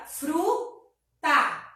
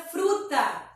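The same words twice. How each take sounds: First: Fruta broken into fru and ta; syllable by syllable. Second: Said in the usual way. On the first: Shown as a demonstration. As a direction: say fruta slowly in two separate beats. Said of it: "duas sílabas". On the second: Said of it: "A palavra fruta fica".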